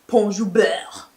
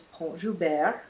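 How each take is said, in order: First: "Pont Joubert" drawn out in an exaggerated mispronunciation; teasing mock accent. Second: Said in the usual way. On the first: Host brother imitating her "Pont Joubert", exaggerated teasing accent. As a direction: overdo "Pont Joubert" with a heavy, mocking final syllable. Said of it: "my host brother starts imitating me saying that". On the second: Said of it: "he told me it was Pont Joubert".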